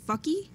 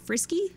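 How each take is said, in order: First: The name is said with the R sound missing. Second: The name is said with a clear R sound. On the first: The speaker calls it wrong. "I couldn't say R's at all when I was a kid" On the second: The speaker calls it right. "I had a dog named Frisky"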